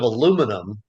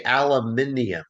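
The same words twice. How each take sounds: First: "aluminum" stressed on LU, uh-LOO-mi-num; American pronunciation. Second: "aluminium" stressed on MIN, al-uh-MIN-ee-um; British pronunciation. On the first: Showing my other favorite, the American "aluminum". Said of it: "Instead of aluminum". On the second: Showing my other favorite, the British "aluminium". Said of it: "they say aluminium". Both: Shown as a demonstration.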